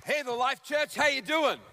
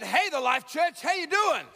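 First: Bright, high call to the crowd; upbeat greeting. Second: Shouted greeting, pitch climbing high on doing; louder repeat shout. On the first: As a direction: greet the congregation cheerfully. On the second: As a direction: call it out again, bigger, to wake the room. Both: Real, not acted. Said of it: "I said".

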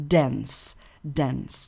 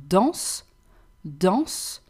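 First: Dance said the English way, falling; English word. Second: Danse in French, nasal "dahnss", final e barely there; soft final E. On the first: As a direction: say dance as in English, with an open nasal a. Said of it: "Dance in English". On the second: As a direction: say danse ending on the s. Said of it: "no strong and definite E at the end". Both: Shown as a demonstration.

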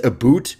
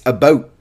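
First: "boot" with a long oo, as others fake Canadian; the wrong imitation. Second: "about" with a raised Canadian ou, near "a-boat"; Canadian pronunciation. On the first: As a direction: say "boot" with a plain oo vowel. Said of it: "Everyone else does, says". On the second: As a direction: say "about" the Canadian way, closed diphthong. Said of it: "Everyone else does, says a boot". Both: Shown as a demonstration.

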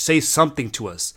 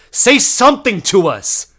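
First: Said in the usual way. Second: High, slow, very loud yell; exasperated shout. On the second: Retold or imitated. Exasperated repeat to the waiter.

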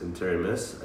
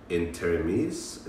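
First: Interimis ending in "iss"; alternative pronunciation. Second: Interimis ending in "eez"; tentative French pronunciation. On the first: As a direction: try Interimis with a short "i" and hissed "s" at the end. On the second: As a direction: try Interimis with a long "ee" and buzzed "z" at the end, rising. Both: Shown as a demonstration. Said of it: "I don't know how to pronounce it".

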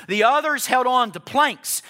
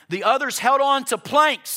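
First: Full-force preaching. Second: Preaching rise. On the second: Preacher lifts pitch, repeats. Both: Acted.

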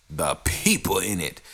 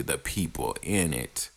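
First: "people" leaned on, pulled out with a falling tune; stress on people. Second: Said in the usual way. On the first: Shown as a demonstration. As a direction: hit the word "people" hard. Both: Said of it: "Emphasis on the people".

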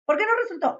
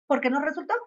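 First: "¿Por qué no resultó?" asked much higher, puzzled; the same question pitched up in real wonder; questioning herself. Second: Said in the usual way. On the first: Shown as a demonstration. Teaching herself to ask why it failed, higher puzzled question. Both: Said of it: "a decir".

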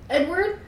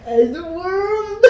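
First: Higher, questioning call; heavy slow voice. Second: Drawn-out, high mocking wail; mock heavy, slow voice. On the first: A narrator's reading. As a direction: call out weakly for Edward, pitched up. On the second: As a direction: make fun of her groggy call, dragging it out. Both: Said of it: "my voice was so heavy and slow".

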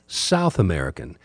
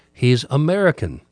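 First: "South" dropped much lower as a pointed correction; stress on South. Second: Said in the usual way. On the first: Shown as a demonstration. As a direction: add "South" as a low, firm fix.

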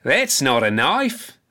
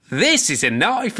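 First: Unhurried, amused put-down of That's not a knife; a lightly voiced Crocodile Dundee, slow and amused; slow dismissive scoff. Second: Lightly voiced Crocodile Dundee, proud and amused; Crocodile Dundee boast. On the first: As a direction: drawl That's not a knife out slowly, unimpressed. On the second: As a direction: lift This is a knife up high like unveiling a huge blade. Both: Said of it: "and he goes".

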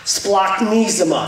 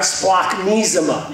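First: Splachnisma drawn out slowly, with a hard k in splak; slow Greek demo. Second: Said in the usual way. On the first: Shown as a demonstration. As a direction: stretch splachnisma out so the congregation can copy it. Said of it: "You gotta get the, ah". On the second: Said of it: "You gotta get the, ah, splachnisma".

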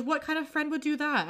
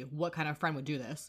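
First: High, mildly hammed-up reproach; mock indignant. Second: Pointed retort. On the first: She scolds her friend while trying not to smile, mock indignant. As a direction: protest in a high voice, holding back a smile. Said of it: "trying hard not to smile". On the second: Retold or imitated. He throws her question back at her, quiet pointed retort. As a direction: turn the question back, understated.

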